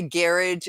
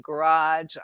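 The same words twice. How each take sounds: First: "garage" as GARE-idge, stress up front; Boston-style garage. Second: Said in the usual way. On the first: Retold or imitated. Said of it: "they say garage instead of". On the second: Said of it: "instead of garage".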